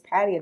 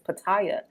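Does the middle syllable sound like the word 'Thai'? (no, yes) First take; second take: no; yes. First: The middle syllable does not sound like 'Thai'. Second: The middle syllable sounds like 'Thai'. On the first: This is the older way of saying the name. The speaker calls it right. "that's how we used to say it back in the day" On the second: This is the newer way people say the name. The speaker calls it wrong. "Now all of a sudden people are like"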